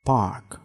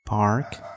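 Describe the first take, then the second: First: It is said without an r sound. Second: It is said with an r sound. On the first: "यो आर चाहिँ silent हुन्छ ब्रिटिसमा" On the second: "अमेरिकनमा चाहिँ"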